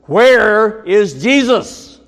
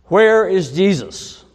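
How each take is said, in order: First: Slow, huge, high thundering roar. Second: Loud booming headmaster bellow, pitched up. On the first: Headmaster's third try at the silent boy, thundering roar. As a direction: thunder it with everything you have. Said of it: "the headmaster thundered". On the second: Headmaster bellowing at the boy, loud booming shout. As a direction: boom it out like a huge headmaster. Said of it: "the headmaster bellowed". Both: Retold or imitated.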